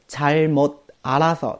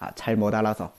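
First: Each syllable is read as written, without change. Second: A sound change links the syllables together. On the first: "本来是잘못알아서" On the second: "会有一个音变现象，要读成잘못알아서"

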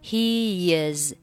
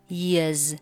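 First: The two words are said separately. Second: The words are joined by a gliding y sound.

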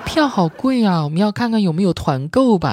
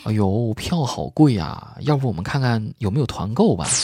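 First: It is said in a floaty, put-on feminine voice. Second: It is said in a plain, ordinary voice.

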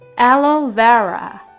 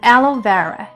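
First: The phrase is spoken at a slow pace. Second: The phrase is spoken at a normal pace.

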